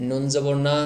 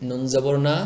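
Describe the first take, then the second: No difference in how they are said.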